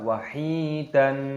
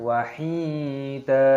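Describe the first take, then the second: First: The word ends with an n sound. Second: The word ends with a lengthened vowel. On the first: The speaker calls it wrong. "jangan dibaca wahidan, salah" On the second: The speaker calls it right. "Tapi dipanjangkan wahida"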